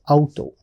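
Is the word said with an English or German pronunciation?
German. It is said with a German pronunciation. "in German we pronounce it as"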